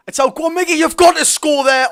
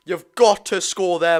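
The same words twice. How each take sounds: First: High, loud and slowed, begging him to score; rising shout as the chance opens; excited urging. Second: Said in the usual way. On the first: Real, not acted. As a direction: yell at the striker to finish it.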